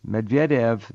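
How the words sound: The name is said with a Russian pronunciation.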